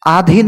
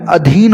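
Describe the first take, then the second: First: आधीन with long opening aa; mispronounced आधीन. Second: अधीन with short opening a; corrected अधीन. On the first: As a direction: open आधीन on a drawn "aa". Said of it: "नहीं होता है भैया". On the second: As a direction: open अधीन on a quick "a". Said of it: "होता है". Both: Shown as a demonstration.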